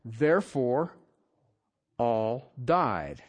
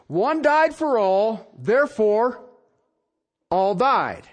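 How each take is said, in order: First: Said in the usual way. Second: "One died for all, therefore, all died" slow, with "died" stressed; slow emphatic reading. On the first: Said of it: "What does it say?". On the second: Shown as a demonstration. Preacher stresses the verse to his congregation, slow and weighty. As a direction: lean on each word slowly.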